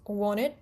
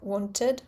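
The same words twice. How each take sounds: First: The middle t is reduced, not fully pronounced. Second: The middle t is clearly and fully pronounced. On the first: "intervocalic th, so uh, it becomes wanted" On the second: "instead of wanted"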